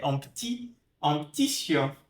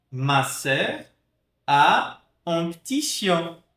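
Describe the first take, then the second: First: "petit" said as "p'tit", e dropped. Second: "petit" said with its e, slowly; full petit. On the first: Teacher showing the mute e in petit. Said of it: "eu posso falar também ti". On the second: Teacher showing the full form of petit. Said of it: "em vez de falar petit". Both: Shown as a demonstration.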